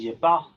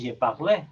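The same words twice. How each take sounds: First: The final e is left silent. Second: The final e is pronounced aloud. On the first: The speaker calls it right. "la final, por ejemplo, es muda" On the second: The speaker calls it wrong. "tú no dices je parle"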